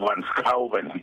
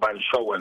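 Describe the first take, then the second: First: The name is pronounced with Dutch sounds. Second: The name is pronounced with Spanish sounds. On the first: This is the original form of the name. "es un apellido que se dice como originalmente, así como Van Schouwen" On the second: This is the everyday form people understand. "yo lo digo Van Schouwen, ¿no? Como más castellanizado"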